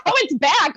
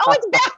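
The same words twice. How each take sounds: First: Higher, louder but settling down; second, calmer take of the relief; relieved repeat. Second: Much higher, louder yelp of relief; delighted squeak that the audio returned; surprised relief. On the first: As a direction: say it again, still pleased. Repeats the sound is back. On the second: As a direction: burst out as the sound comes back. Sound returns on call. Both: Real, not acted.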